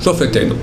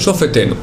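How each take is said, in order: No difference in how they are said.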